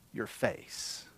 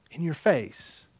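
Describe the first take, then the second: First: Voiceless whisper, much softer. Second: Said in the usual way. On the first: Acted. Preacher whispering Peter's words to the congregation. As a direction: hush the words like a secret. Quote ends in a hush.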